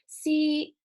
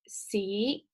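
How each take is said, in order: First: It is said in Cantonese tone one. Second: It is said in Cantonese tone two.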